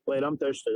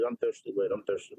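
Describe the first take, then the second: First: Said in the usual way. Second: Dropped low. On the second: Pretend. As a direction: repeat the line much lower.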